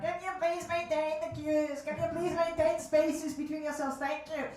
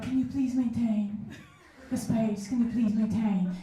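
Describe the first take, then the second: First: Higher, through a tinny loudspeaker; flat nasal queue announcement. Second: Lightly feminine, sweetened ask; a hint of a girly voice; mock feminine. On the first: Retold or imitated. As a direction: announce the queue rules like a cheap megaphone. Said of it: "a little loudspeaker ... make my voice more nasal". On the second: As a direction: ask nicely in a put-on feminine way. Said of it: "I decided to be more feminine about it".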